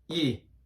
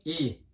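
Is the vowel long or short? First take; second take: short; short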